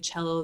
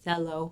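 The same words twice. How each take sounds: First: The word begins with the standard ch sound. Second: The word begins with a different, substituted sound. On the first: The speaker calls it right. "instead of saying cello" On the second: The speaker calls it wrong. "they say cello"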